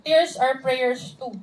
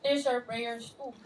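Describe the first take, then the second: First: Slow reading of the slide quote; slowly, words spaced, reading aloud. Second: Softer and slow, gently insisting; hushed, slow, sincere; soft slow repeat. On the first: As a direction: read slowly, each word spaced. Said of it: "Sabi niya doon". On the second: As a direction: lay the words down softly. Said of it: "hindi siya prayer". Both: Shown as a demonstration.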